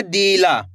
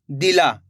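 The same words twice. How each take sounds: First: दिला with a long stretched "dee"; drawn-out mispronunciation. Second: दिला with a short, quick "di"; quick short vowel. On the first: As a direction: stretch the first vowel of दिला, wrongly, as "deee-la". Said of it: "ऐसे नहीं पढ़ेंगे". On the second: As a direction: clip the first vowel of दिला to "di-laa". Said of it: "इस तरीके से तेजी के साथ". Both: Shown as a demonstration.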